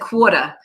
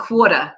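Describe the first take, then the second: First: It is said in a heavy New York accent. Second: The same.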